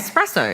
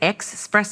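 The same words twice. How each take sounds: First: It is said with a plain s, no x sound. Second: It is said with an x sound, like expresso. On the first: The speaker calls it right. "There's no X in espresso" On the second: The speaker calls it wrong. "I used to say espresso and I got in trouble with that"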